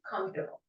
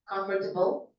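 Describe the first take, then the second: First: The word is squeezed into two syllables. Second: The word is said with four full syllables. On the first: "because of the accent, it changes into comfortable" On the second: "It's still accepted in some cultures"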